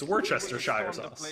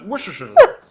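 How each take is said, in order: First: It is said slowly and clearly. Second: It is said fast and mumbled. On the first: The speaker calls it right. "now I'm just gonna be like" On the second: The speaker calls it wrong. "mumble my way through it, or just say it really fast"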